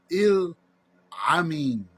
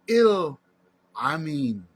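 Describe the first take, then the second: First: The first vowel sounds like 'ee'. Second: The same.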